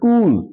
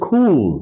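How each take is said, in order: First: The k is said without a puff of air. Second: The k is said with a puff of air. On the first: The speaker calls it wrong. "it's never cool" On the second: The speaker calls it right. "it's always cool"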